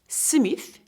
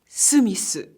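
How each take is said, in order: First: It is said with an English accent. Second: It is said with a Japanese accent. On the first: "And Smith" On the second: "will be Smith"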